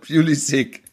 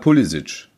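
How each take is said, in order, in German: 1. Der Name wird amerikanisch ausgesprochen. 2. Der Name wird kroatisch ausgesprochen. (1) "wenn ich es amerikanisch ausspreche" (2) "ich habe kroatische, glaube ich, Vorfahren und die sagen halt Pulisic"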